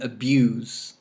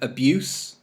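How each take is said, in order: First: The word ends with a buzzing z sound. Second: The word ends with a hissing s sound. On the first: It is the verb. "abuse with Z" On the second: It is the noun. "the noun with S"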